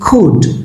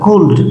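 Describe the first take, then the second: First: The L sound is silent in the word. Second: The L sound is pronounced in the word. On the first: The speaker calls it right. "No, it's কুড" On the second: The speaker calls it wrong. "এটা অনেকে কুল্ড বলে"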